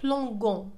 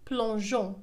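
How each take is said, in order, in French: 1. La consonne avant la terminaison est un G dur. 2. La consonne avant la terminaison est un J doux. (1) "سنقول plongeons وهذا خطأ" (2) "لتنطق J لتعطينا الصوت J وننطقها plongeons"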